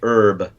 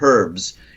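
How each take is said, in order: First: The h at the start is silent. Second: The h at the start is pronounced.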